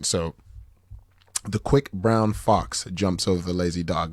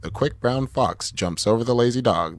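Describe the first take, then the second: First: The voice has full bass without low-cut filtering. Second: The voice has thinner bass with low-cut filtering. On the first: "it's a tiny bit fuller without that uh, bass roll off" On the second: "put the high pass filter on"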